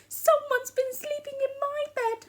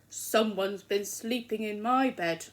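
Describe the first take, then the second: First: The voice is soft, quiet and gentle. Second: The voice is loud, low and growly. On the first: "in her soft gentle voice" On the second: "in his loud growly voice"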